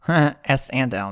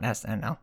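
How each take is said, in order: First: The letters are joined by a spoken 'and'. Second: The three letters are said with no 'and'. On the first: The speaker calls it right. "S and L, not SNL" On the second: The speaker calls it wrong. "not SNL"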